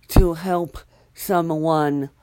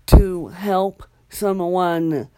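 Both takes have the same delivery.

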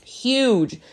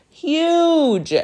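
First: Huge stretched out and lifted; stressed huge; emphasis on huge. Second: Huge squeaked much higher, a bit louder; huge in a squeaky, overdone voice; exaggerated huge. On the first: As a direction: lean into the word huge, falling. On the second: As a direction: go way up on huge to oversell it. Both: Real, not acted.

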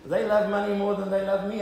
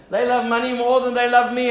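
First: Said in the usual way. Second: Louder and higher, hammering LOVE; preaching emphasis. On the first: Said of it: "and I don't like that". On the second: Shown as a demonstration. Pastor repeats the family joke, now preached loudly. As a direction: preach it out with full force.

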